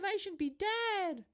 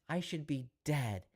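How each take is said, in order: First: It is said in a small, babyish voice. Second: It is said in the speaker's normal voice.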